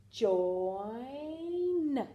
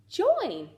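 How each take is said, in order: First: Slow drawn-out join; stretched blend. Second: Said in the usual way. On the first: Shown as a demonstration. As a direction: blend join slowly, sound by sound. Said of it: "J, oi, n".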